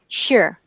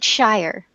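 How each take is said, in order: First: The word has a weak, reduced vowel. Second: The word has a full, clear vowel. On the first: It ends the name of a county. The speaker calls it right. "because it's unstressed" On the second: It names the place in the story. The speaker calls it wrong. "they don't pronounce it shire, like in Lord of the Rings"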